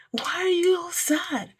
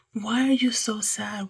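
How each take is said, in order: First: Whispered much higher, in disbelief; high incredulous whisper. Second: Said in the usual way. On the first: Acted. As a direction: breathe it out high, baffled. Puzzled rhetorical question to listeners.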